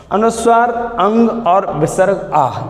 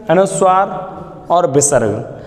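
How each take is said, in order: First: After अनुस्वार sound अंग with a nasal ng, after विसर्ग sound आह with a breathy h; sound demo. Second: Said in the usual way. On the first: Shown as a demonstration.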